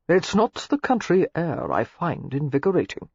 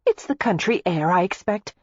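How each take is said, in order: First: Lightly voiced, intimate suitor; low voice. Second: Lightly raised character voice; lightly voiced Daisy. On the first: Clandrindon confessing his feelings to Daisy, low voice. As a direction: confide it in an understated low voice. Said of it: "Clandrindon said in a low voice". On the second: Daisy explaining away his strange mood, lightly voiced. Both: A narrator's reading.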